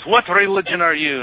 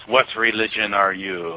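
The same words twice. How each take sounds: First: High, animated Egyptian cabbie accent, imitated; Hussein. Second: Slow mock Russian accent; heavy Russian accent. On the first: Cabbie quizzing his passenger on religion, imitated accent. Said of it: "I guess I'm still doing Hussein". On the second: Young churchman challenging a visitor, slow Russian accent. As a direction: imitate a stern Russian, drawn out. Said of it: "this heavy Russian accent".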